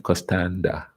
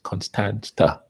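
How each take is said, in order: First: The consonant before the final vowel is a D. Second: The consonant before the final vowel is a T.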